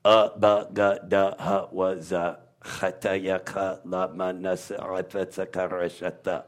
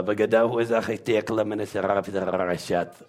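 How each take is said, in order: First: Letters as separate syllables, UH BA GA DA, trailing softer; guttural letter recital. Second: Letters chained in one unbroken stream; all run together. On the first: Demonstrating the guttural alphabet, one sound at a time. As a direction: recite each sound apart, low and soft. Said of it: "The whole language is a guttural". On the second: Putting the alphabet together, run-on recital. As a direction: roll straight through the syllables without gaps. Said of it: "You put them all together". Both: Shown as a demonstration.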